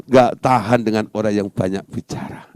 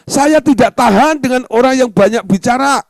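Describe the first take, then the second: First: Said in the usual way. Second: Loud, high-pitched outburst; acted fed-up exclamation; exasperated complaint.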